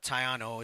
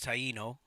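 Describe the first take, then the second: First: The name is said like 'Tayano'. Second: The name is said like 'Taino'. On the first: The speaker calls it wrong. "it's not Tayano" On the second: The speaker calls it right. "it's Taino"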